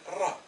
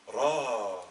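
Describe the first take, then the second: First: « Ra » dit avec un a bref, plus haut. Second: « Ra » avec un a long et tenu. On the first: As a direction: prononcer « Ra » avec une voyelle courte. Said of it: "Avec la fatha, il va se prononcer". (« Ra » avec voyelle brève) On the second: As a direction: allonger le a de « Ra ». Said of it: "avec le alif, il va se prononcer". (« Ra » avec voyelle longue) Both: Shown as a demonstration.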